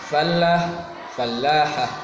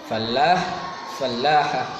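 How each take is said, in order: No difference in how they are said.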